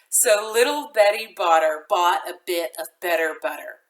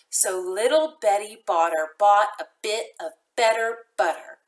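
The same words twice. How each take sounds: First: It is said moderately fast. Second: It is said slowly.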